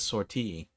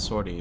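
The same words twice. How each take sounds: First: It is said with a French-sounding pronunciation. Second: It is said with an English-sounding pronunciation. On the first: This is how the character in the game says it. "she says sortie. Almost as if it's like a word borrowed from French" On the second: This is how the speaker usually says it. "I always pronounce it as sortie"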